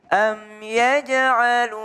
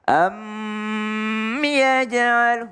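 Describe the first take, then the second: First: The m sound is short and clear. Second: The m sound is held and nasalized. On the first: The speaker calls it right. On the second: The speaker calls it wrong. "itu juga nggak boleh"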